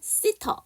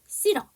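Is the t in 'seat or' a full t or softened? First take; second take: full; softened. First: The words are linked with a full t sound. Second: The words are linked with a softened t sound. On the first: "sit 어니까 sitter 되는데" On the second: "모음과 모음 사이의 약회"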